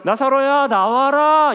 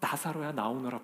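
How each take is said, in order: First: It is said triumphantly, like a conquering general. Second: It is said sorrowfully, with an aching heart.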